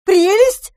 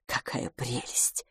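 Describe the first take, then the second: First: High, loud, outraged echo; indignant cry. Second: Soft, slow, hushed delight; excited curiosity. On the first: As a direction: cry out the word in disbelief. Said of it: "вскричала мисс Дюбари". (возмущённый громкий вскрик) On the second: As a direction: gush under your breath, low and slow. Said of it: "взволнованная и полная любопытства". (тихо, с восторженным любопытством) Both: A narrator's reading.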